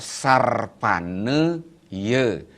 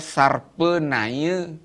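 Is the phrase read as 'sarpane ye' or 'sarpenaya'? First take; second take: sarpane ye; sarpenaya. First: It is split into syllables as sarpane ye. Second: It is run together as sarpenaya. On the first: Being flexible like the winding path of a snake. The speaker calls it right. "pakai suku kata yang betul bacaannya adalah sarpane ye" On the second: Having a treacherous mind like a snake. The speaker calls it wrong. "Tangan dibaca sarpenaya"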